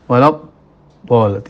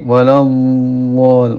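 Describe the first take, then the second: First: The dhad sound is cut short without flowing. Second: The dhad sound flows on slowly and continuously. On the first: The speaker calls it wrong. "suara hampa. Walab bol, tidak benar" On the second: The speaker calls it right. "Jadi seperti ini"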